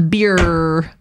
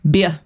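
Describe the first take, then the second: First: "Beer" drawn out with a sounded R; American accent. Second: Short "Beer" with no final R; Australian accent. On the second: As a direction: drop the R from "Beer", Australian style. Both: Shown as a demonstration. Contrasts American and Australian R.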